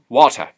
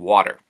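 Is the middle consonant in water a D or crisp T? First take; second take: crisp T; D. First: The middle T is crisp and clearly articulated. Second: The middle T sounds almost like a D. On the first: "very high articulation of the T's" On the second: "we would almost turn the T into a D"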